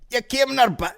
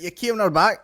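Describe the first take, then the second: First: Higher mock Scottish lad; mimicking Scottish guy. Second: Higher, louder mock Scottish lad; mimicking Scottish guy. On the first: Quoting the man in the clip, mock Scottish. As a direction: parrot the Scottish guy's line. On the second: Retelling what the man in the clip says, mock Scottish. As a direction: echo the Scottish guy, amused. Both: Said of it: "He's like".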